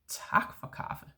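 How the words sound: It is said in a harsh, sharp tone. The speaker is negatively surprised. "if you say it in a more harsh way"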